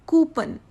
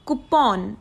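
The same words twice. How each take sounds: First: "coupon" as "kyoo-pun", a bit high; "coupon" said "kyoo-pən"; wrong coupon. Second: "coupon" as "koo-pon" with a held n; "coupon" said "koo-pon", no y sound; correct coupon. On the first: Teacher mimics the wrong "coupon". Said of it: "totally the wrong pronunciation". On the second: Teacher gives the right "coupon". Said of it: "The correct one is". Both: Shown as a demonstration.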